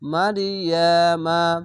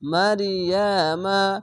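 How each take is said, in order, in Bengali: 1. এটি খোলা ma স্বর দিয়ে শেষ হয়। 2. এটি খোলা ma স্বর দিয়ে শেষ হয়।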